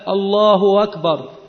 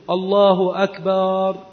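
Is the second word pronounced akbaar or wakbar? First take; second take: wakbar; akbaar. First: The glottal stop becomes a w, wakbar. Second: The second word has a long vowel, akbaar. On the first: It keeps the meaning of greatest. The speaker calls it right. "إذا وقعت الهمزة مفتوحة بعد ضم أن تقلب واوا" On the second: It means drums instead of greatest. The speaker calls it wrong. "فهذا لا يصح، لأنه يحيل المعنى، فإن أكبر جمع كبر"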